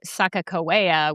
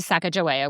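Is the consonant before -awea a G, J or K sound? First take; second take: K; J. First: The consonant before -awea is a K sound. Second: The consonant before -awea is a J sound. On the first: It follows the Hidatsa version of her history. "The Hidatsa say Sacagawea with two Ks" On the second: It follows the Northern Shoshone version of her history. "the Northern Shoshone say Sacagawea with a J"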